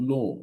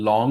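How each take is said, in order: First: "লং" with a long rounded oh; rounded oh vowel. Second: "লং" with open aw; open aw vowel. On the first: Teacher demonstrating the corrected sound, oh in "লং". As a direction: stretch "লং" as lohng. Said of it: "অ হয়ে যাবে ও". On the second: Teacher quoting how we used to say it, open-vowel "লং". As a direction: say "লং" the habitual way, aw in the middle. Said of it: "অ বলতাম". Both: Shown as a demonstration.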